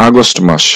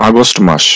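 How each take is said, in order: No difference in how they are said.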